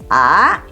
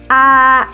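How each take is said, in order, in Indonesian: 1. Diucapkan dengan nada kedua. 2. Diucapkan dengan nada tinggi, yaitu nada pertama. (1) "Nada dua" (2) "nada satu, a tinggi"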